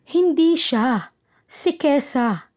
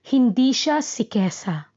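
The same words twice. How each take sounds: First: There is a pause right after siya. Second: There is no pause inside the phrase. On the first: Not that person, but Kesa, is meant. "hinto pagkatapos ng siya" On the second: The person being discussed is not Kesa. "Nasa dulo ang hinto"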